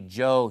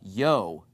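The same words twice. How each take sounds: First: The word begins with a J sound. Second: The word begins with a Y sound. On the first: "pronounce it as a J" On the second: "the Y is a yes sound"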